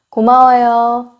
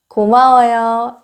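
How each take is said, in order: The two takes are said the same way.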